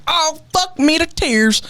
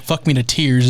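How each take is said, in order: First: Much higher, slow strained cry of pain; hurt golfer. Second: Said in the usual way. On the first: Retold or imitated. Golfer hit in the ankle by a practice swing, slow high pained wail. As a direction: wail it like you just got whacked in the ankle. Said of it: "and the guy goes". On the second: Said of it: "You just put it".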